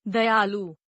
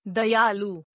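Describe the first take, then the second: First: Said in the usual way. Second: दयालु ending on long oo, "dayaaloo"; mispronounced. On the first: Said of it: "शुद्ध". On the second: Shown as a demonstration. Teacher showing a u error, mispronounced with long final oo. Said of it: "अनशुद्ध".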